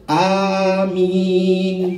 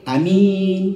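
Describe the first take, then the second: First: The first vowel is drawn out long. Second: The first vowel is cut short. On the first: "Yang panjang" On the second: "yang pendek"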